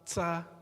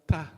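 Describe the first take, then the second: First: The consonant has a hissing s-like release. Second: The consonant has a clean release without hiss. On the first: The speaker calls it wrong. "If it touches the teeth, you have this sound" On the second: The speaker calls it right. "Just on the gum, gum line"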